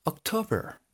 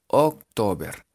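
First: October high and soft, posh English-style; posh "gomelo" pronunciation. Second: October as written, "oc-to-ber"; literal reading. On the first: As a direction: put on a preppy English October. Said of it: "solo que más gomelo". (October gomelo, agudo y suave) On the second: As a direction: read October with plain Spanish vowels. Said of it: "Así literal". (October literal, leído a la española) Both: Shown as a demonstration.

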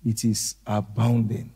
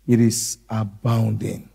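First: Hushed repeat. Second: Said in the usual way. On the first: Shown as a demonstration. Repeats it much softer.

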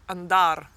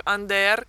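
First: "andar" slow, with open a; Guastalla dialect. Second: "ander" with open e, rising; Gualtieri dialect. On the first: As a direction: draw out "andar" Mantuan style. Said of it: "a Guastalla si dice". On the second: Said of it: "a Gualtieri si dice ander". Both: Shown as a demonstration.

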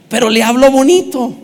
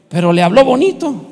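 First: Pero le habló bonito through a laugh, louder. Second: Said in the usual way. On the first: Shown as a demonstration. Preacher repeating the punchline laughing with the congregation. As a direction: chuckle the punchline.

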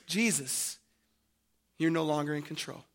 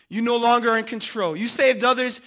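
First: Low, soft, quick pronouncement; quiet verdict. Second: Quick, forceful, louder accusation; loud taunt. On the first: Mockers addressing Jesus on the cross, quietly. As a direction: say it low and hushed. Voicing the mockers' meaning, first take. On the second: Mockers accusing Jesus on the cross, loud taunt. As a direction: hurl the charge at him loudly. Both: Acted.

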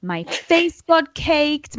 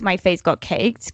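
First: "My face got caked" stretched slow and high; slow drawn-out emphasis. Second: Said in the usual way. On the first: Shown as a demonstration. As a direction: draw out every word of "My face got caked". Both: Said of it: "may I just add".

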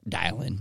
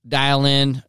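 First: Quieter, lower repeat; soft echo. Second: Said in the usual way. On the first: Shown as a demonstration. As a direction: let the second dial in drop away softly.

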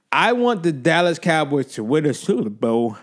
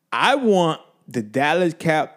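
First: Said in the usual way. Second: Slow, words stuck in the throat; can't finish the sentence; words stick. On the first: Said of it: "It's tough saying this". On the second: Real, not acted. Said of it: "I can't even talk".

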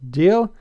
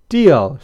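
First: "Deal" with a rising question tune; questioning offer. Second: "Deal" falling and firm, a bit louder; decided agreement. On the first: Blythe asks Pepper to agree on "Deal", questioning offer. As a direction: lift "Deal" high as an offer. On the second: Pepper agrees after thinking, "Deal" as decided agreement. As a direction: drop "Deal" down as a settled answer. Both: A narrator's reading.

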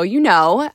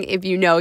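First: You punched with a knowing rise; you know with a hit on you; stress on you. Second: Said in the usual way. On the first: Shown as a demonstration. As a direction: lean on the word you and lift the end.

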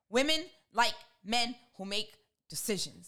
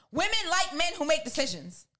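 First: "Women... like... men... who make... decisions", slow with pauses; word-by-word emphasis. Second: WOMEN pitched up high, then running straight through DECISIONS; emphatic restatement. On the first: Woman closing her advice to men, "Women like men who make decisions" spaced out. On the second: Woman stating her advice to listeners, emphatic "Women like men who make decisions". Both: Real, not acted.

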